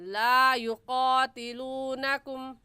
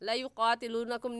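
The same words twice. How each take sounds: First: The vowel of 'la' is drawn out. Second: The vowel of 'la' is kept short. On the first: The speaker calls it right. "एक अलिफ की मिकदार खींच कर पढ़ेंगे" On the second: The speaker calls it wrong. "नहीं कहेंगे"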